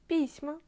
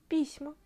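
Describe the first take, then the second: No difference in how they are said.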